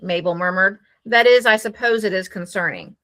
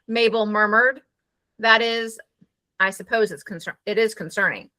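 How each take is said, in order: First: No pause comes before "that is". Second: A full pause comes before "that is". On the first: The following remark is not especially emphasized. The speaker calls it wrong. "You don't even have to pause" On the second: The following remark is set apart and emphasized. The speaker calls it right. "that tells your reader there is a complete pause here"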